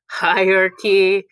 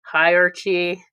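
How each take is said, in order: First: Hierarchy said properly with a hard "kee" ending; slow, careful hierarchy ending in "ki"; hierarchy, the real pronunciation, clearly; correct hierarchy. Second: Hierarchy said as "hire Archie", ending in "chee"; slow, split Hierarchy into hire plus Archie; Hierarchy with a "ch" as in Archie, a slow pun. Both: Shown as a demonstration. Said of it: "hire Archie to fulfill his safety needs".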